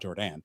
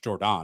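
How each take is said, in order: First: The last syllable has an 'a' vowel. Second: The last syllable has an 'o' vowel. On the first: The speaker calls it wrong. "There's not an A at the end" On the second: The speaker calls it right. "There's an O"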